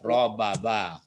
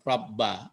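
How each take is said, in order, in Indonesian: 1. Kedua bunyi b dipisahkan oleh sebuah vokal. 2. Kedua bunyi b menyatu menjadi satu b panjang. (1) "kalau dilepasin tasdidnya" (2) "ditasdidkan itu mah gini"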